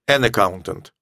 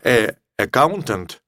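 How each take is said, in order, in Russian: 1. Звук n связывается со словом. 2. Перед словом стоит гласный звук без n.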